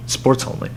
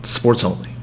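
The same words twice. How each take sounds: First: Whispered Sports only, barely voiced; whispered repeat. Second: Said in the usual way. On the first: Shown as a demonstration. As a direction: breathe the words Sports only as an aside.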